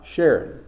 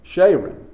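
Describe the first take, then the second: First: The first vowel is a short vowel sound. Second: The first vowel is a long A sound. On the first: The speaker calls it wrong. "Not Sharon" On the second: The speaker calls it right. "Long A"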